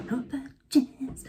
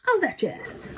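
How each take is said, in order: First: Slow, drawn-out showy echo; playful, lingering stage flourish; theatrical catchphrase. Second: High, showy flourish; playful, put-on high voice; theatrical catchphrase. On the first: Pretend. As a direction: stretch out JAZZ slowly, higher than usual. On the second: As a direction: toss it off with high showbiz flair.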